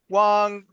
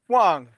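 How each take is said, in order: First: The pitch stays level and flat. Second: The pitch falls sharply downward.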